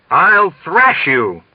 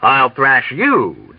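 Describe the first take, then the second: First: Pompous officer's fuming threat; furious threat. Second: Slow, cold repeat of the threat; mock him back, icy; coldly turning his threat on him; cold warning. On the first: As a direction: drag the threat out in outrage. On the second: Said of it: "Dunbar warned him coldly". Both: A narrator's reading.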